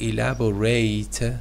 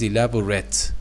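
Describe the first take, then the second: First: The last syllable is a full 'ate'. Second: The last syllable is a weak, reduced vowel. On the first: It is used as a verb. "The verb is elaborate, ate" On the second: It is used as an adjective. "The adjective is elaborate"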